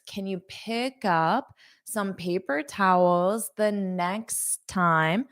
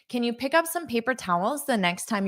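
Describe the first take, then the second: First: It is said slowly, with careful linking. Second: It is said quickly, at normal speaking speed. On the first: "I'll say this slowly" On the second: "now I'll say it at a natural pace"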